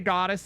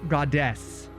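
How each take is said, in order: First: It is said in a non-British, flowing accent. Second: It is said in a British accent. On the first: "we say goddess is kind of, you know, it kind of flows" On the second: "I really like how the British say goddess"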